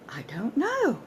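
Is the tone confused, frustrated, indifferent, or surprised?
surprised. It sounds genuinely surprised. The speaker never considered the question before. "Genuine surprise at not knowing that or not having considered that"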